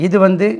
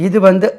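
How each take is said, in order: No difference in how they are said.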